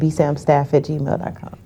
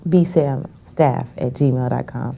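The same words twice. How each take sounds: First: It is said at a normal, faster pace. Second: It is said more slowly.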